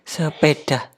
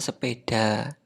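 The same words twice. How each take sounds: First: The word ends with a breathy 'h' sound. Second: The word ends with a plain open vowel. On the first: The speaker calls it wrong. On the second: The speaker calls it right.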